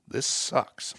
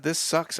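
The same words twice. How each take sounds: First: Unvoiced, breathy grumble; muttered whisper. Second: Higher, louder grumble. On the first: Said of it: "I literally said". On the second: Retold or imitated. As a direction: say it out loud, fed up. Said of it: "as I said, "This sucks," out loud".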